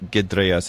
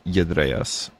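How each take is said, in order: First: The word begins with a hard G sound. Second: The word begins with a Y sound. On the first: The speaker calls it wrong. "it's not gedreas" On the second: The speaker calls it right. "it's yedreas"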